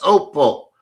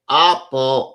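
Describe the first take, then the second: First: The first vowel sounds like 'oh'. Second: The first vowel sounds like 'ah'. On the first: The speaker calls it right. "So it is opal" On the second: The speaker calls it wrong. "all of them do say apple"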